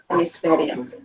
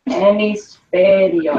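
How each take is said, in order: First: Said in the usual way. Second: "hemisferio" stretched out sound by sound; slow sounding-out. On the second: Shown as a demonstration. Teacher shows class they forgot a letter, slowly sounding out. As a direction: sound the word out very slowly for spelling.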